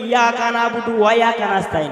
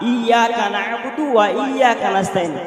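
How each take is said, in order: First: The first word begins directly with 'ya'. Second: The first word begins with an 'i' vowel. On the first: The speaker calls it wrong. "কেউ কেউ বলে ... ইয়া নয়" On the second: The speaker calls it right. "আলিফ ইয়া জের ই"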